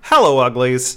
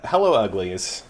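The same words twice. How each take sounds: First: It imitates the hosts' dramatic voice. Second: It is read in his ordinary voice.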